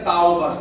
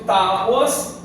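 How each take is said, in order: First: The word is said as 'taubas'. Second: The word is said as 'tábuas'. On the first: The speaker calls it wrong. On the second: The speaker calls it right.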